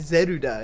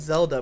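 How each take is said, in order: First: The name is said with Japanese sounds. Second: The name is said with English sounds. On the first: "it would be called Zeruda in Japan" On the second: "we call it Zelda"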